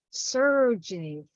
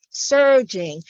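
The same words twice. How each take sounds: First: "surging" at ordinary volume, falling at the end; poetic recitation. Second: "surging" louder and fuller, falling at the end; swelling repeat. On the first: Poet first voicing the river's surge, restrained recitation. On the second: Poet repeating the river's surge, louder declamation. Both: Acted. Poem repeats word, building.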